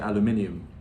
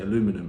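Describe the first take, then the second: First: It is said the British way. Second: It is said the American way. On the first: "spelt the British way, I would say aluminium" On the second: "if I saw it written aluminum"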